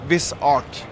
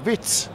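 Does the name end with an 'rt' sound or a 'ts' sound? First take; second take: rt; ts. First: The name ends with an 'rt' sound. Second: The name ends with a short 'ts' sound. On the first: The speaker calls it right. "the one I really love" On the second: The speaker calls it wrong. "There is a particularly bad one, and that comes out of Denmark"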